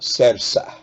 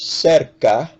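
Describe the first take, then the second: First: The second c is sounded like s. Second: The second c is sounded like k. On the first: The speaker calls it wrong. "accidentally pronouncing the second C like an S" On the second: The speaker calls it right. "The word is pronounced cerca"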